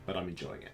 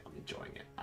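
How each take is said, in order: First: Said in the usual way. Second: Whispered repeat to himself; whispered echo. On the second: Real, not acted. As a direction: breathe it out as a whisper.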